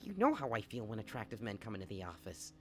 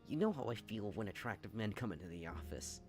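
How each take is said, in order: First: It is said in a put-on alien voice. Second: It is said in a more ordinary voice.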